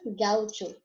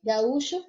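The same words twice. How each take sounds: First: Gaucho with the stress on GAU. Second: Gaúcho with the stress on Ú. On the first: Teacher gives the Spanish take, stress on GAU in gaucho. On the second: Teacher gives the Portuguese take, stress on Ú in Gaúcho. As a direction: say Gaúcho as ga-Ú-cho. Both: Shown as a demonstration. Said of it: "só muda a sílaba tônica".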